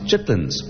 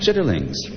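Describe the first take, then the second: First: The word is said shortened as chitlins. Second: The word is said in full as chitterlings. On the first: The speaker calls it right. "it's pronounced chitlins, as it is in every single dictionary" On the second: The speaker calls it wrong. "And I pronounced it chitterlings"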